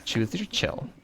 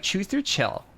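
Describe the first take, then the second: First: Sassy lisped "chill"; condescending flamboyant lisp. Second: Catty person. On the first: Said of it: "You have to say it with that lisp". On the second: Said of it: "a catty person would say". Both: Retold or imitated.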